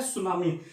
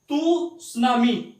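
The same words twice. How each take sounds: First: सुनामी starting on S, lower and falling; correct silent T. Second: तू सुनामी with a sounded "too" in front; wrong pronunciation. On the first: Teacher giving the form to say, silent T. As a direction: say सुनामी without any T, pitch dropping. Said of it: "आपने क्या बोलना है?". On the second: Teacher showing what not to say, extra T syllable sounded. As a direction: slowly add a separate तू before सुनामी. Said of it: "नहीं बोलना है". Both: Shown as a demonstration.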